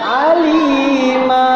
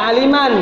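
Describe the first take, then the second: First: The word ends with a lengthened a vowel. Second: The word ends with a final n sound. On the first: The reader stops at the end of the phrase. "Karena dibaca mat iwad, berhentiin" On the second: This is the full form of the word. "Itu sebenarnya baca aliman"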